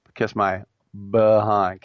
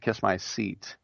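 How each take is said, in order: First: "behind" with the stress on HIND, said loud; stress moved to HIND. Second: Said in the usual way. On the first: Shown as a demonstration. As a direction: hit HIND in "behind" hard. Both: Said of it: "I put the emphasis on the other syllable".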